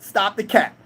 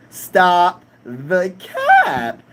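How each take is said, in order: First: Said in the usual way. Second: Drawn-out catchphrase. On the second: Shown as a demonstration. Streamer to chat, dragging "Stop the cap" out slowly. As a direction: stretch every word out very slowly.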